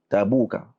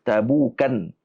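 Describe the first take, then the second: First: The word ends in a plain vowel without n. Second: The word ends in a vowel followed by n. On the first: The name is treated as a feminine proper noun. "Tabuk dibaca dengan mamnu' min as-sarf" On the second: The name is treated as referring to a place. "ada riwayat hadis yang dibacakan dengan Tabukan"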